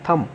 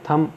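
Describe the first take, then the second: First: The final b sound is silent. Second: The final b sound is silent.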